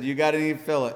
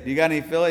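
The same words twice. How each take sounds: First: "fillet" said with a clear t at the end, FIL-it; local pronunciation. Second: "fillet" said fil-LAY, no t at the end; American pronunciation. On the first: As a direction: say "fillet" the Botswana way, t sounded. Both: Retold or imitated. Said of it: "They called it fillet there, not fillet".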